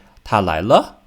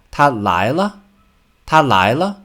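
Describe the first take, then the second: First: Said in the usual way. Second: 他来了 with 来 and 了 both pitched high and louder; both syllables raised. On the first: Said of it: "Don't just say". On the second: Shown as a demonstration. Teacher modeling the right intonation question. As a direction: lift 来 and 了 together. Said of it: "Raise both 来 and 了".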